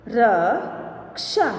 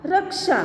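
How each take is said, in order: First: Slow, each sound drawn out, rising at the end; slow drawn-out reading. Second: Said in the usual way. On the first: Shown as a demonstration. Teacher slowly sounding out a word for students, drawn out. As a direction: stretch the word slowly for the class. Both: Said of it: "अब इसका शब्द हम देखें".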